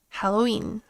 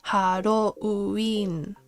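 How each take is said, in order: First: The u and i blend into one glide. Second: The u and i are said as separate syllables. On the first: The speaker calls it right. "you're smashing the two sounds and reading it as like a ui" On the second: The speaker calls it wrong. "you would have to pronounce it separate, separately"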